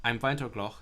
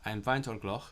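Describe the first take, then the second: The two takes are said the same way.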